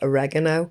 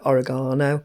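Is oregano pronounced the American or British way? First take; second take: American; British. First: The word is pronounced the American way. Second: The word is pronounced the British way. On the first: "in America, Canada, et cetera people call it oregano" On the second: "in the U K we call it oregano"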